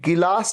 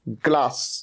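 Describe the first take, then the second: First: An extra vowel separates the g and l. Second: The g and l form one cluster. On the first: The speaker calls it wrong. "इसे कभी भी गिलास नहीं कहना है" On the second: The speaker calls it right. "इसे हमेशा क्या कहना है"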